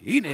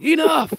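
First: Said in the usual way. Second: Put-on loud, high kid holler. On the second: Grandchildren hollering enough at grandpa, loud. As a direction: yell it back like excited children. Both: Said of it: "They all hollered".

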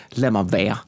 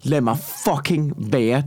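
First: Low, subdued "leave me alone"; pitched down, wanting to be left be; retold brush-off. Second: Slow, leaning on "fucking"; fed-up repeat, "fucking" punched slowly; stress on FUCKING. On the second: Retold or imitated. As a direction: draw it out with weight on "fucking". Repeats it with an intensifier.

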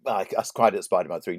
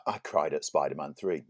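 First: "cried" pushed louder and quicker in "I, I cried at Spider-Man three"; emphatic repeat. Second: Said in the usual way. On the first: Shown as a demonstration. To his co-host, insisting he cried, louder "cried".

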